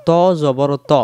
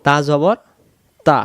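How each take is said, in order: First: "ত" as rounded to, full dark t; heavy to. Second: "তা" with thin t and open a; light ta. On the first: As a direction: spell out "ত জবর ত" with rounded lips. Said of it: "এই ত অক্ষরটা". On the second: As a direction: spell out "তা জবর তা" with an unrounded vowel. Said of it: "এটা হলো তা". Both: Shown as a demonstration.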